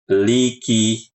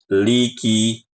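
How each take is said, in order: Both takes have the same delivery.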